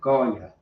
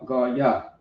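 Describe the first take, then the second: First: The word is said quickly and smoothly. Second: The word is said slowly and carefully.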